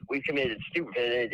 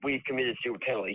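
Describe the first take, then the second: First: The word stupid is given strong extra stress. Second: The word stupid is not given extra stress. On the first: The speaker is genuinely angry about the mistakes. "he emphasized the word stupid" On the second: The remark is a routine, unemotional admission. "He didn't say it like that"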